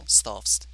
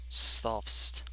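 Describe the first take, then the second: First: The name is said quickly, as one syllable. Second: The name is said slowly, drawn out.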